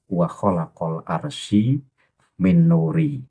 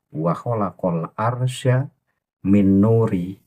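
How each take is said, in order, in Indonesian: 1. Kata arsy berakhir tanpa vokal akhir. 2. Kata arsy berakhir dengan tambahan vokal a. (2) "Jadi yang benar adalah"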